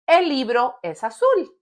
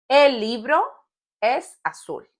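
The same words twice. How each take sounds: First: Said in the usual way. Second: "El libro", pause, then "es azul"; teacher's phrase-by-phrase repeat with a long pause; broken up for learners. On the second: Shown as a demonstration. Example repeated in pieces for learners.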